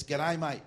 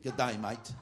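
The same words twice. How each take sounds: First: "G'day, mate" punched higher and louder, "day" like "die"; Australian pronunciation. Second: Imitating an American's "G'day, mate" with a clear "day"; mock American attempt. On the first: Shown as a demonstration. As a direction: demonstrate a true Aussie "G'day, mate". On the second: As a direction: mimic a learner's misfired "G'day, mate". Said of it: "Sounds like you're from some mental home".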